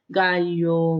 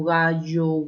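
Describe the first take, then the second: First: Gallo with the ll said as a palatal l, ɡaʎo; gallo pronounced ga-llo with a clear Andean ll; gallo with the ll kept distinct from y. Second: Gallo said ɣaʝo, the ll sounding like the y in mayo; gallo with a Lima ll pronounced as y. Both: Shown as a demonstration. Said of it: "o sea, lo pronunciamos igual".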